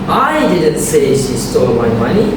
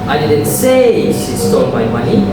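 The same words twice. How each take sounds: First: The stress falls on the word I. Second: The stress falls on the word say. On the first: Someone else said it. "which means someone else did" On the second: It was implied, not said. "I implied it"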